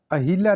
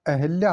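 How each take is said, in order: First: अहिल्या with i after h; a clear हि in अहिल्या; mispronounced अहल्या. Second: Said in the usual way. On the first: Shown as a demonstration. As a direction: say अहिल्या as "a-hil-yaa". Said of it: "अहिल्या नहीं होता". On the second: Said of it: "अहिल्या होता है".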